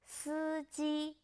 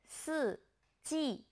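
First: Both syllables have a high level tone. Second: Both syllables have a sharp falling tone. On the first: It means driver. "two first tones" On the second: It means four seasons. "Two fourth tones"

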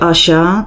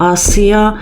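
First: The consonant is a soft sh-like sound. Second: The consonant is a plain hissing s. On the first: The speaker calls it wrong. "nie czyta się Asia, tak jak imię polskie Asia" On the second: The speaker calls it right. "tylko Asja"

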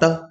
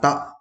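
First: The syllable is said with a full, level tone. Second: The syllable is said short, light and low. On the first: "từ này đọc là tơ" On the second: "thanh nhẹ đọc là tọ"

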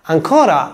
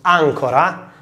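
First: The stress is on the second syllable. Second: The stress is on the first syllable. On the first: It means again or still. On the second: It means anchor.

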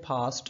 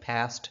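First: It is said with a British accent. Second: It is said with an American accent. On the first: "British में बोलना चाहें तो आप बोल सकते हैं" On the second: "अमेरिकन में बोलना चाहें समथिंग लाइक"

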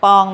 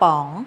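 First: The syllable is said on a low tone. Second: The syllable is said on a rising tone. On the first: "ไม้เอก" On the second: "ไม้จัตวา"

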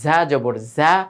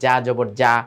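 First: The consonant is a buzzing z sound. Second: The consonant sounds like a Bengali j. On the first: The speaker calls it right. "এই উচ্চারণ সহি" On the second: The speaker calls it wrong. "বাংলার বরিগার্য বা অন্তস্থ জয়ের মতো করে ফেলে, এরকম যেন না হয়"

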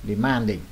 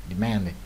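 No difference in how they are said.

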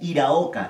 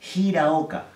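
First: The first H is silent, starting on the vowel. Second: The first H is a breathy sound like J. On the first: The speaker calls it wrong. "generalmente la gente ha escuchado que lo lee como Hiraoka" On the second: The speaker calls it right. "y no es Hiraoka, es Hiraoka"

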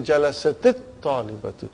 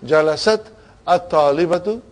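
First: The words are joined with a linking 'i' vowel. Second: The two words are pronounced separately, unlinked. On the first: "we say Jalasatit Talibatu" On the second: "Instead of saying Jalasat At-Talibatu"

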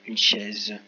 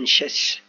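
First: The final consonant is a Z sound. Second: The final consonant is an S sound. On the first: "Moi, je veux le Z" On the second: "Parce que deux S, ça ferait une chaise"

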